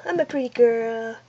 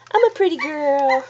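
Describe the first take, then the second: First: Lightly voiced pet, lower and softer; pet's voice. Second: Said in the usual way. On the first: Owner speaking for her pet after "say hello", low and soft. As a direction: answer for the pet in a soft little voice.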